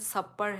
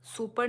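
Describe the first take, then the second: First: The first vowel sounds like 'uh'. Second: The first vowel sounds like 'oo'. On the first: The speaker calls it right. "इसका pronunciation सपर है" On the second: The speaker calls it wrong. "सुपर नहीं"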